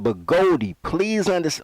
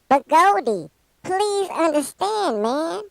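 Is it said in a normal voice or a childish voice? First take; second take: normal; childish. First: It is said in his normal voice. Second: It is said in a put-on childish voice.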